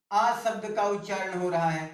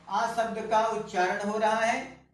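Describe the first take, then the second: No difference in how they are said.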